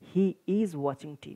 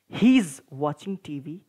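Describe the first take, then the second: First: He and is are said as two words. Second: He is is joined into one syllable.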